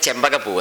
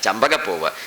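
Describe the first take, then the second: First: The first syllable has an 'e' vowel. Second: The first syllable has an open 'a' vowel. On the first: This is the local corrupted form. The speaker calls it wrong. "നമ്മുടെ നാട്ടിലെ ചെമ്പകപ്പൂവ്" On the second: This is the original form of the word. The speaker calls it right. "ചെമ്പകല്ല ശരിക്കും ചമ്പകമാണ്"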